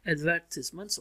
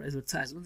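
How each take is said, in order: First: "advertisements" with stress on VER, ending -tiz-ments; British pronunciation. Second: "advertisements" with a long "eye" in -tise-; American pronunciation. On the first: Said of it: "one is British pronunciation". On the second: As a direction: say "advertisements" the American way, AD-ver-tize-ments. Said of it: "American pronunciation". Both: Shown as a demonstration.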